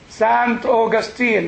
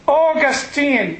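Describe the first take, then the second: First: The name is said the American way. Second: The name is said in a non-American way.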